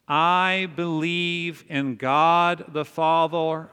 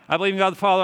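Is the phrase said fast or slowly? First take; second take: slowly; fast. First: The phrase is said slowly and deliberately. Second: The phrase is said quickly and casually. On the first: The words are meant and reflected on. The speaker calls it right. "say it with me slowly" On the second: The words are recited by rote without thought. The speaker calls it wrong. "we just kind of like"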